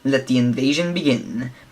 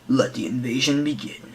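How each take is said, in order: First: The voice is at an ordinary pitch. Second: The voice is very deep and low. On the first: "in the trailer they show for it" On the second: "Like a really deep voice"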